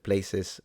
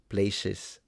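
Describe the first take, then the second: First: The middle consonant is a plain s sound. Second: The middle consonant is a sh sound. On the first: "instead of places" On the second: "switch the s into a sh"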